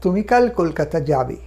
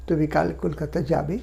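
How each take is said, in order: First: "তুমি কাল কলকাতা যাবে" falling steadily to a low যাবে; teacher's affirmative model with falling যাবে; statement intonation. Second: Soft, low start with যাবে rising at the end; teacher's question model with a final rise on যাবে; question intonation. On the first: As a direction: state it, letting যাবে drop. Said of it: "এই যে একটা হ্যাঁবাচক". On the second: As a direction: ask it by lifting the voice on যাবে. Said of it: "জিজ্ঞাসার মতন করে দেওয়া". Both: Shown as a demonstration.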